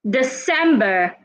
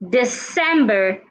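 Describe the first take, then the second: First: The c sounds like s. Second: The same.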